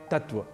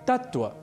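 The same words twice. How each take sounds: First: The t sound in the middle is single. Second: The t sound in the middle is doubled. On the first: The speaker calls it wrong. "हम धड़ल्ले से प्रयोग करते हैं तत्व" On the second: The speaker calls it right. "एक और शब्द है तत्व, जो बना है तत् और त्व"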